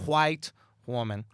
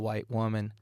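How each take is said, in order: First: 'White' starts with a breathy h sound. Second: 'White' starts with a plain w sound. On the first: The speaker calls it right. "There's an H after that W" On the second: The speaker calls it wrong. "you're not saying it correctly"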